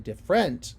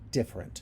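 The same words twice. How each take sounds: First: The stress is on the second syllable. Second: The stress is on the first syllable. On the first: The speaker calls it wrong. "I don't say different" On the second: The speaker calls it right. "This first syllable is stressed"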